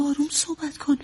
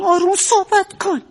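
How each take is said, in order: First: Soft, insistent plea for quiet; hushed insistence. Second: Exasperated insistence. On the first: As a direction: ask him softly to keep it down. (با اصرار ولی آهسته) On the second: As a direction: raise your voice, fed up with repeating it. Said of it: "به چه زبونی بگم". (کلافه و با صدای بالا) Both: Acted.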